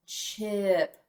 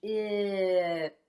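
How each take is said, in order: First: Said in the usual way. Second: Chip drawn out, sounds gliding together; slow blend. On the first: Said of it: "What's our word?". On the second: Shown as a demonstration. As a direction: stretch it slowly for the class. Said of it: "Blend that with me".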